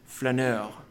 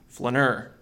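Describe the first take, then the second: First: It is said with a French accent. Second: It is said with a Minnesotan accent.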